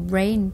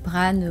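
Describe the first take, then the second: First: The word is said with an English accent. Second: The word is said with a French accent. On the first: The speaker calls it right. "brain plutôt" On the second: The speaker calls it wrong. "avec l'accent français"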